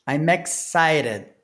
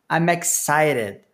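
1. O M vai direto para a vogal seguinte. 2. O M vai direto para a vogal seguinte.

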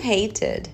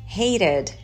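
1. O t do meio é um t completo. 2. O t do meio é um flap rápido. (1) "ou não" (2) "fazer o flap"

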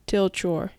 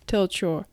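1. 2語はひと続きになめらかにつなげて発音します。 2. 2語はひと続きになめらかにつなげて発音します。

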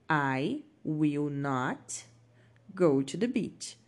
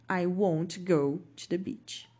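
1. 'Will' e 'not' são ditos como palavras separadas. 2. 'Will' e 'not' são unidos em uma única sílaba. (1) "Então você vai incluir o not" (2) "você pode juntar o will com o not. E aí você pode falar won't"

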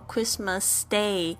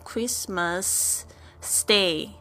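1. 两个 s 音合并成一个。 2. 先停一下，然后再把 s 说一遍。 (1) "我们就只要发1 次就可以了" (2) "千万不要发成Christmas Stay，又停下来又再讲了1 次stay"

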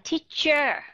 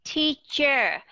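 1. Âm tiết cuối được phát âm đầy đủ và rõ ràng. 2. Âm tiết cuối được phát âm đầy đủ và rõ ràng.

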